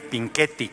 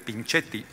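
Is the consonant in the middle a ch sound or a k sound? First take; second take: k; ch. First: The middle consonant sounds like k. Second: The middle consonant sounds like ch. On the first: The speaker calls it right. "Cuando se usa la C H suena como nuestra Q U" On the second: The speaker calls it wrong. "la bancada de Acción Nacional acaba de decirle"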